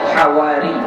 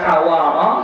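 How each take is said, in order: First: The r is followed by an 'i' vowel. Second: The r is followed by an 'a' vowel. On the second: "dengan memfathahkan ra"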